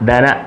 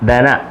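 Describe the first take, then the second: Both takes have the same delivery.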